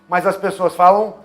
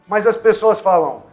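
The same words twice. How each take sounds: Both takes have the same delivery.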